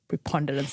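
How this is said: It is said in a British accent. "I had to do a British accent to say such a long word"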